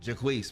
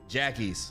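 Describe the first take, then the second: First: The name sounds like Jaquise, ending in keese. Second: The name sounds like the word Jackie's.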